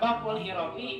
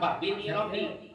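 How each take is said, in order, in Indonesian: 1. Kata pertama diakhiri dengan vokal u. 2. Kata pertama diakhiri dengan vokal i. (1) "bisa dibaca babu-babu" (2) "bisa dibaca babi"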